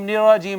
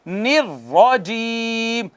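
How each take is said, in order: First: The r is soft and single. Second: The r is forceful and doubled. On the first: The speaker calls it wrong. "यूं नरमी से नहीं पढ़ना" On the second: The speaker calls it right. "जोर से पढ़ेंगे"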